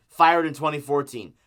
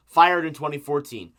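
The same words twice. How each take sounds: The two takes are said the same way.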